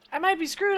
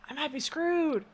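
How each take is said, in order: First: Higher and louder alarm; panicked exclamation. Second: Said in the usual way. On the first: Real, not acted. Repeats line, second more alarmed.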